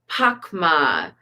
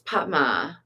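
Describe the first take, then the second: First: The middle consonant is pronounced as k. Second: The middle consonant is pronounced as t. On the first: The speaker calls it wrong. "I got started reading Pakma" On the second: The speaker calls it right. "but it's not, it's Patma"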